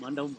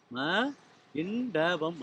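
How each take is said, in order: First: Said in the usual way. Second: மண்டபம் split as ம, pause, இண்டபம்; sounded out. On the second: Shown as a demonstration. (மண்டபம் என்பதை ம, இண்டபம் என்று பிரித்துச் சொல்) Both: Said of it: "மண்டபம் வரும்".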